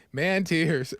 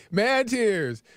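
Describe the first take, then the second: First: Said in the usual way. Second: "Man tears" called out proudly, stress on "Man"; emphatic call. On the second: Shown as a demonstration. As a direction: hit "Man" like a slogan. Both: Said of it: "everybody say".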